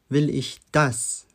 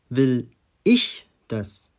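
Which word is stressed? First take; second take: das; ich. First: The stress is on "das". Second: The stress is on "ich".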